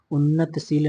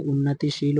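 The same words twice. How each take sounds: First: उन्नतशील, unnat running straight into sheel; wrong form उन्नतशील. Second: उन्नतिशील, a clear ti before sheel; correct form उन्नतिशील. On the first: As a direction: say उन्नतशील with no i after the t. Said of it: "नहीं". (उन्नतशील, 'त' पर इ की मात्रा के बिना) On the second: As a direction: say उन्नतिशील with i after the t. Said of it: "होता है". (उन्नतिशील, 'ति' की मात्रा साफ़ बोलकर) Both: Shown as a demonstration.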